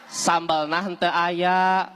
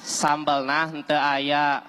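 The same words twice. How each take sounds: First: Slow repeat. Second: Very slow, lower, each word stretched; slow again, drawn out. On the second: Warteg owner repeats slowly to the customer, drawn-out. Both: Acted. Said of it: "Coba ulangi sakali deui".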